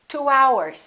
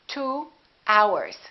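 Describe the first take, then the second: First: A w glide joins the two words. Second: The two words are said separately.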